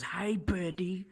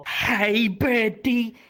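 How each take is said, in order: First: Softer, drawn-out imitation of his hello; slow, quiet mock greeting; Ethan's greeting. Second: Loud, high imitation of his hello; booming mock greeting, drawn out; Ethan's greeting. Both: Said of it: "That's how he talks".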